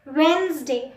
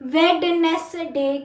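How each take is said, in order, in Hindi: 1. "d" silent है और शब्द छोटा हो जाता है। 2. "d" और बीच का "e" दोनों बोले जाते हैं। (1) "डी साइलेंट होता है शुरू का" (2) "वेडनेसडे कुछ नहीं होता"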